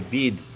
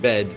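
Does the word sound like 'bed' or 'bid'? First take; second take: bid; bed. First: The vowel is raised toward an 'i' sound. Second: The vowel is an open 'e' sound. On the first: "they say bid" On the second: "instead of saying bed"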